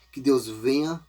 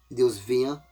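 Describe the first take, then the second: No difference in how they are said.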